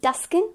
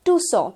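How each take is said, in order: First: Tuscan, short vowel and K sounded; mispronunciation. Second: Tucson as "too-saw"; long OO and silent C in Tucson; correct pronunciation. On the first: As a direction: say Tuscan with a hard C. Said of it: "it's not gonna be". (Tuscan, Tucson का गलत उच्चारण) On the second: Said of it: "That's the correct pronunciation". (Tucson का सही उच्चारण, "टूसॉ") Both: Shown as a demonstration.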